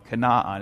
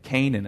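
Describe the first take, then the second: First: It is said with a Russian Israeli accent. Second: It is said with a standard English accent.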